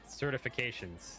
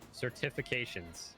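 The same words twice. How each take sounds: First: The syllables are said casually, without careful enunciation. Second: Every syllable is carefully and clearly enunciated.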